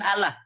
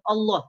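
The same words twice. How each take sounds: First: The L is said thin and light. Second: The L is said thick and heavy. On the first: The speaker calls it wrong. "bukan Allah" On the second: The speaker calls it right. "tapi ditebal Allah"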